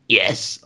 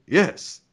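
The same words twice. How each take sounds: First: It is said in a weak, croaky voice. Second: It is said in a clear, confident voice.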